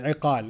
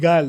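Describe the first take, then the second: First: The middle consonant is a deep throaty q. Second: The middle consonant is a hard g sound. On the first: The speaker calls it right. "iqal is the proper pronunciation" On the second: The speaker calls it wrong. "They call it igal now"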